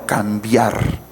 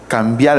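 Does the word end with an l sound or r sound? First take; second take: r sound; l sound. First: The final r is said as a clear r. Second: The final r is said as an l sound. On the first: The speaker calls it right. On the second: The speaker calls it wrong. "La R por la L"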